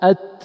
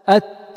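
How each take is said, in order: First: The air after the t is held and cut off. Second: The air after the t flows out freely. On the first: The speaker calls it wrong. "لاحظ الشيخ أت" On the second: The speaker calls it right. "والصحيح أت أت، يعني لا تقفل"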